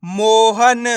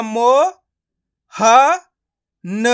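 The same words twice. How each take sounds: First: मोहन joined as one stretched word; blended word. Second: मो, ह, न each sounded alone; long pauses between मो, ह and न; syllable by syllable. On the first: Teacher showing learners the joined result, blended word. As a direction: run मो, ह, न together as मोहन. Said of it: "तो मिलके बन जाएगा". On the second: Teacher breaking a word up for learners, syllable by syllable. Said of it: "एक एक करके इनका उच्चारण करना है". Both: Shown as a demonstration.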